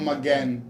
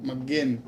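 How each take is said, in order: Both takes have the same delivery.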